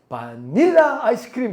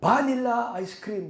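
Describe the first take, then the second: First: The stress is on the middle syllable. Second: The stress is on the first syllable. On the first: "중간에 있나 보다" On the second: "액센트가 앞에 있어가지고"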